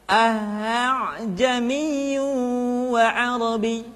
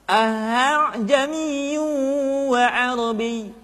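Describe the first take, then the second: The two takes are said the same way.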